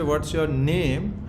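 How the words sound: The stress falls on the word name. The name itself is treated as important. "you are assigning importance to his name"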